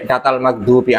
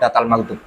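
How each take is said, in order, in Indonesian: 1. Kata terakhir berakhir dengan vokal i. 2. Kata terakhir berakhir dengan konsonan. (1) "Yang kesembilan yaitu" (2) "Anak tadi baca kok"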